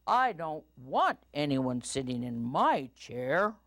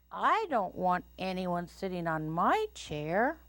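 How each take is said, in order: First: Lightly boomed papa bear, punched WANT; booming Papa Bear. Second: Lightly voiced mama bear, higher lilt. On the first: Papa Bear objects about his chair, booming. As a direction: lay down the law as papa bear. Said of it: "in his booming voice". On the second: Mama Bear objects about her chair, higher lilting voice. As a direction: lilt upward to the end. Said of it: "said Mama Bear in her quiet voice". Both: A narrator's reading.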